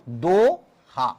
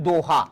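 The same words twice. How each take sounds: First: "Doha" very slow, long do, pause, then ha; syllable by syllable. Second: Said in the usual way. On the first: Shown as a demonstration. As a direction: break "Doha" into two drawn-out syllables. Teacher splits the term into syllables. ("दोहा" को दो... हा तोड़कर, धीरे)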